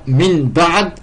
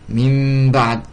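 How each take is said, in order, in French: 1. La nasale devant le b est un n simple. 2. La nasale devient un m tenu et nasalisé. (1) "Comme dans min ba'd" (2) "ça devient mim ba'd, avec deux temps, haraka, runna"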